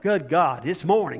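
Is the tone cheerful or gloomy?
gloomy. It is said in a gloomy, groaning tone.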